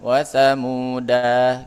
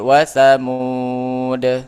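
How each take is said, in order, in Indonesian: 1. Kata itu diakhiri dengan vokal pendek. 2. Kata itu berakhir pada konsonan mati. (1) "Bukan wa thamuda gitu ya" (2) "berhenti dia jadi wa thamud"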